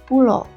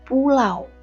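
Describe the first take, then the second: First: The word ends with a plain o vowel. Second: The word ends with the diphthong au. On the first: Familiarity with Balinese has influenced the speaker. The speaker calls it wrong. "pulo menggunakan vokal o" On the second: This is the standard Indonesian form. The speaker calls it right. "harusnya menggunakan diftong au"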